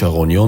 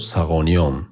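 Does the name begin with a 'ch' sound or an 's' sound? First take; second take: ch; s. First: The name begins with a 'ch' sound. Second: The name begins with an 's' sound. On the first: This is how the locals say it. "мо Чағониён мегӯем" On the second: This is how Arabs say it, lacking the 'ch' sound. "шумо арабҳо Сағониён бо сод"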